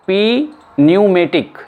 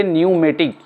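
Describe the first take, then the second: First: पी न्यूमेटिक with P said first, slowly; P pronounced in pneumatic. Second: न्यूमेटिक starting on N; silent P in pneumatic. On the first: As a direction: slowly sound a separate पी before न्यूमेटिक. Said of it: "ये नहीं बोला जाएगा". (पी न्यूमेटिक, प अलग से बोलकर) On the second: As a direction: say न्यूमेटिक, with no P in front. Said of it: "इसको हम बोलेंगे न्यूमेटिक". (न्यूमेटिक, बिना प के) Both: Shown as a demonstration.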